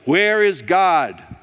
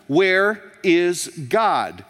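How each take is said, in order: First: It is bellowed very loudly. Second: It is asked even more sternly and forcefully.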